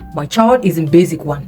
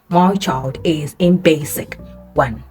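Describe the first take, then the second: First: The s in basic is not an s sound. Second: The s in basic is an s sound. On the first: The speaker calls it wrong. "You don't say" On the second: The speaker calls it right. "you say"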